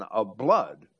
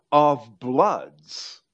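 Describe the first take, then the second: First: Said in the usual way. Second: "of bloods" said louder, with the plural s clearly voiced; emphatic "of bloods". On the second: Shown as a demonstration. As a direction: lean hard on "of bloods", landing on the final s. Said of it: "rather than".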